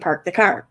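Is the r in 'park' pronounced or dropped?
pronounced. The r in 'park' is clearly pronounced.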